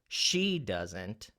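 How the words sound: The stress falls on the word she. "if I accented she"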